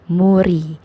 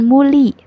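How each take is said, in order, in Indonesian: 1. Konsonan tengahnya bunyi R. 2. Konsonan tengahnya bunyi L. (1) "tapi dibacanya jadi muri" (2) "bukan muli"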